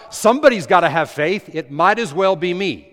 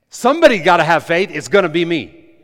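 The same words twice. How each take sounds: First: Said in the usual way. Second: Louder, firm and certain; bold declaration. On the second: Shown as a demonstration. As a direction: claim it, no hesitation. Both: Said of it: "I don't even like the way that sounds".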